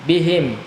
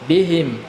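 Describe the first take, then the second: Both takes have the same delivery.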